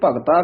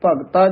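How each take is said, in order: First: The consonant before the last vowel is dh. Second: The consonant before the last vowel is t. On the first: The speaker calls it wrong. "ਧੱਦਾ ਲਾ ਜਾਂਦੇ" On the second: The speaker calls it right. "ਤੱਤੇ ਨਾਲ ਬੋਲਣਾ ਹੈ"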